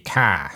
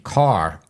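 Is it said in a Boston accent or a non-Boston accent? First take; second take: Boston; non-Boston. First: It is said with a Boston accent. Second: It is said without a Boston accent.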